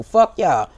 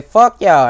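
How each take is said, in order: First: Said in the usual way. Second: Loud, punched curse as the crowd's voice; defiant shout. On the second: Retold or imitated. Voicing the crowd's defiance to viewers, a loud shout. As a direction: shout it out for thousands of people at once. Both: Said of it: "thousands of us that's gonna say".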